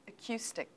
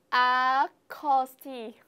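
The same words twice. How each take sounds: First: "acoustic" as "uh-KYOO-stik", falling end; quiet clear model of "acoustic" with a "kyoo" middle; correct pronunciation. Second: Very slow, loud "acoustic" as "ah-cos-tee", final k dropped; naive Vietnamese-style misreading. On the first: Shown as a demonstration. Teacher corrects the learner's reading, correct pronunciation. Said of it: "it is pronounced". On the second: Pretend. Student plays a learner with little English, naive misreading. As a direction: sound out "acoustic" letter by letter like a beginner. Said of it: "[name] sẽ phát âm theo kiểu".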